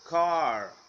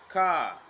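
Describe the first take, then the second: First: The final r is clearly pronounced. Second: The final r is not pronounced. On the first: "American car" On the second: "British car"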